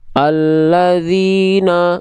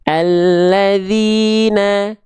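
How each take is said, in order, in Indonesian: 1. Vokal a terdengar tebal dan gelap. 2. Vokal a terdengar tipis dan terang. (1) "Kalau dia buka mulut saja, khawatirnya pelafalan teman-teman seperti ini" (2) "kita tipiskan pelafalannya"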